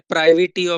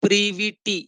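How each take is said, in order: First: The first vowel sounds like 'eye'. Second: The first vowel sounds like 'ee'. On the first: The speaker calls it wrong. "बहुत लोग pronunciation में pronunciation ऐसा भी करते हैं" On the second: The speaker calls it right. "But actually the pronunciation is"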